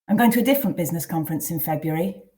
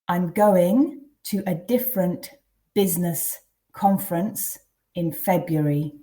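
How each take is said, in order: First: It is read at a natural, faster pace. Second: It is read slowly and deliberately. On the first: "then read twice at a more natural pace" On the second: "I'll read them first quite slowly"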